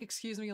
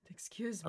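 First: It sounds casual, like passing someone by. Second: It sounds soft and apologetic, like saying sorry.

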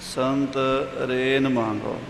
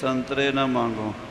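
First: The syllables are grouped as 'sant ren mango'. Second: The syllables are grouped as 'santre na mango'. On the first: It asks for the dust of the saints. The speaker calls it right. "ਇੱਦਾਂ ਨਹੀਂ ਹੈ" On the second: It asks not to beg for oranges. The speaker calls it wrong. "ਕਈ ਅਣਜਾਣ ਪਾਠੀ ਇੱਦਾਂ ਬੋਲਦੇ ਸੁਣੇ ਜਾਂਦੇ ਆ"

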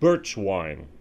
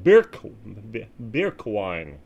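First: The word is said with an English accent. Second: The word is said with a German accent.

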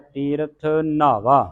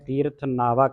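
First: The word nava is pronounced heavy. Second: The word nava is pronounced light. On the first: The speaker calls it right. "ਇਹਨੂੰ ਭਾਰਾ ਉਚਾਰਨ ਕਰਨਾ ਹੈ" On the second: The speaker calls it wrong. "ਹੁਣ ਇਹਨੂੰ ਸੰਗਤਾਂ ਪੋਲਾ ਪੜ ਜਾਂਦੀਆਂ"

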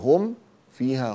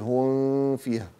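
First: The m sound is clearly pronounced. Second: The m sound is hidden and nasalized. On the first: The speaker calls it right. "فأظهر الميم أقول" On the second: The speaker calls it wrong. "هنا لا أخفي، لا أقول هم فيها، غلط"

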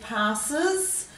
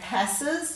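First: The first vowel is a long 'ar' sound. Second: The first vowel is a short 'a' sound. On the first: This is the everyday way of saying it. "Same with passes" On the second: This pronunciation helps with spelling. "to make it easier for you to spell"

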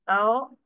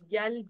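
First: The letter name starts with a plain vowel. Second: The letter name starts with a y sound. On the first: The speaker calls it right. "this is how you have to do the pronunciation" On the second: The speaker calls it wrong. "few of the students, they will going to pronounce it as yel"

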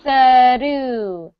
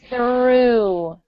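First: The R is a quick tongue tap. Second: The R glides smoothly without a tongue tap. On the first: The speaker calls it wrong. "When it taps, this is what it sounds like" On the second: The speaker calls it right. "why don't we practice that R sound as well?"

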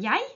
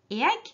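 First: It is said in the Eastern Norwegian dialect form. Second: It is said in the Western Norwegian dialect form. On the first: "på Østlandet sier man «jeg»" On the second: "på gjerne Vestlandet sier man «jeg», fordi man ikke har hatt brytning"

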